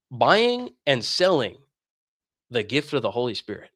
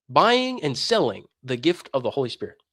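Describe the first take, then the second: First: Buying and selling dragged out slowly, each word weighed; slow emphasis. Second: Said in the usual way. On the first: Shown as a demonstration. Apostles naming the new sin, slow and heavy. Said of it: "stressed phrase naming the sin". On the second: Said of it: "phrase repeated as a comment".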